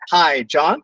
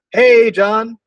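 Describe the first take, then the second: First: Said in the usual way. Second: "Hey, John." much higher and louder, beaming; light up as he picks up; excited greeting. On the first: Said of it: "So here's what you do". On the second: Shown as a demonstration. Sales caller greeting a prospect on the phone, excited. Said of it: "I'm excited".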